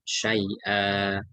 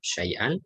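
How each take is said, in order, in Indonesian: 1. Kata ini berakhir dengan vokal panjang. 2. Kata ini berakhir dengan bunyi n. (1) "kalau mau diwakafkan syai'a, dua harokat" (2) "kalau dibaca lengkap"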